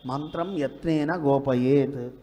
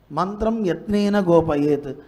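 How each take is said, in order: First: Slow recitation. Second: Emphatic recitation. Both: Shown as a demonstration.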